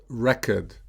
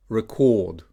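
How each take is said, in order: First: RECord, stressed on the first syllable. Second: ReCORD, stressed on the second syllable. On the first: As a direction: say record as a noun, REC-ord. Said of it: "stressed on the first syllable". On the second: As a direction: say record as a verb, re-CORD. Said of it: "stressed on the second syllable". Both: Shown as a demonstration.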